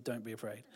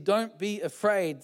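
First: Very soft, low, spooky angel line; hushed. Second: Said in the usual way. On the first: Pretend. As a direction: breathe it eerily. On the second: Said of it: "but the angel said".

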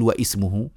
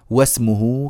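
First: واسمه broken as "wa-'ismuhu"; the wrong reading "wa-'ismuhu" of واسمه; hamza sounded, mistaken. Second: واسمه linked as "wasmuhu"; واسمه said slowly as "wasmuhu", no glottal stop; no hamza, joined. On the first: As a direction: put a glottal stop after "wa" in واسمه. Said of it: "مش نقول واسمه". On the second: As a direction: glide straight from "wa" into "smuhu" in واسمه. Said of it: "فالصواب عدم همز هذه الكلمة". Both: Shown as a demonstration.

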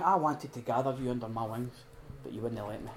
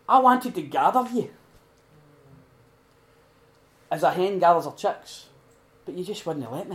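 First: Soft, dropping away, tender sorrow; gentle sorrow, much softer; tender lament. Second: Jesus weeping over Jerusalem, pleading lament. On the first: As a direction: say it gently, almost to yourself. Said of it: "He's going". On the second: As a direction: cry it out over the city. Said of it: "crying, weeping". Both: Retold or imitated.

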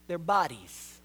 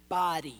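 First: Their pushed up and held before bodies; stress on Their. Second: Said in the usual way. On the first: Shown as a demonstration. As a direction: lean hard on the word Their.

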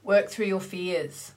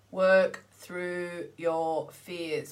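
First: Said in the usual way. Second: "Work through your fears" drawn out very slowly, each word weighted; slow emphatic repeat. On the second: Shown as a demonstration.

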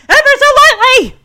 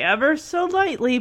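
First: High, loud mock yell; imitated dad shouting. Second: Said in the usual way. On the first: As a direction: shout it like a panicking driving-instructor dad. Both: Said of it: "He's shouting right in her face".

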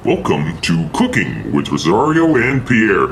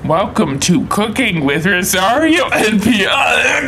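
First: Slow, showy host welcome; show host intro. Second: Slow, hammed-up host call; show host intro. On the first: Acted. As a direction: sell the cooking show opening. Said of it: "Told you I say it better". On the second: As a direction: belt the show opening out. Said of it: "Listen to this".

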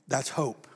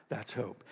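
First: Said in the usual way. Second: Much softer echo of the line; soft repeat. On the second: Acted. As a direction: drop it to a hush. Preacher repeats phrase, much softer.

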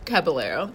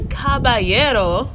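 First: Caballero said the English way, ca-buh-LAIR-oh; plain American Caballero, no rolled R. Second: Caballero with a Spanish-style rolled ending, slowed; trying to sound authentic. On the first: Host repeating guest's correction of her name, plain English. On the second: Host trying the guest's surname authentically, slow careful Spanish try. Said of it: "I was trying to be all authentic". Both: Shown as a demonstration.

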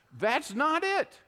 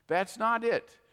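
First: Higher and slow, firm; slow emphatic denial. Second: Said in the usual way. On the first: Real, not acted. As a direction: land it hard the first time. Repeated rebuttal.

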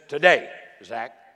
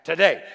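First: Slow, loud call with "Today" drawn out and rising; calling out as Jesus. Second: Proclaiming as Jesus. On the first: Jesus calling Zacchaeus down from the tree, a slow loud call. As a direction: call Zach by name, slowly and loudly, letting "Today" lift. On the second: Jesus declaring to Zacchaeus, a loud falling proclamation. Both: Retold or imitated. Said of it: "Jesus looks at him and says".

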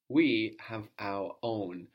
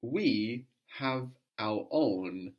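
First: Said in the usual way. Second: We slowed, leaning on the word We; We given extra weight at a slow pace; stress on we. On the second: Shown as a demonstration. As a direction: punch We slowly, then let the rest fall. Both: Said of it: "let's emphasize we".

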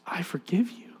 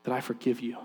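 First: Breath-only whisper, soft; whispered forgiveness. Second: Low, soft, retold forgiveness; gentle forgiveness. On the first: Retold or imitated. Woman repeating her forgiveness to stunned dad, whispered. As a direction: whisper it tenderly as a retold line. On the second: Woman telling the man who hit her, gentle and hushed. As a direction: lower the voice and say it gently.

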